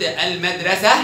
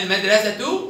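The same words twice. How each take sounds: First: المدرسة ending in -ah; pausal haa. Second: المدرسة ending in -atu; sounded taa. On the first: Teacher shows the pausal form, المدرسة ending in -ah. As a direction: end المدرسة on h, no t. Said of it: "نطقت هاء". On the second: Teacher shows the joined form, المدرسة ending in -tu. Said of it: "تنطق بالتاء". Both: Shown as a demonstration.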